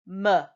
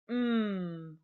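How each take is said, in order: First: The consonant sound has a vowel added after it. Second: The consonant sound is said alone, with no vowel. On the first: The speaker calls it wrong. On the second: The speaker calls it right. "We say"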